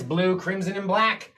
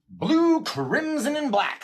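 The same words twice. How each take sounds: First: Said in the usual way. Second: Sing-song. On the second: Real, not acted. Repeats the answer, sing-song.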